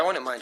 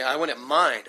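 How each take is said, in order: First: Said in the usual way. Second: Casual offhand. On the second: Shown as a demonstration. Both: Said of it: "I even said it like that".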